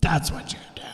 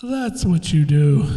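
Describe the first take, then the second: First: Whispered. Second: Said in the usual way. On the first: Shown as a demonstration.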